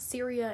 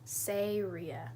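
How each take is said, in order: First: The name begins with a 'sear' sound. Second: The name begins with a 'say' sound. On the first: The speaker calls it wrong. "it's not Syria" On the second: The speaker calls it right. "it's Sayria"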